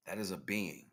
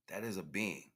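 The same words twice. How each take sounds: The two takes are said the same way.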